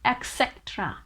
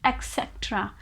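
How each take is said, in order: First: The word begins with an 'eks' sound. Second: The word begins with an 'eks' sound.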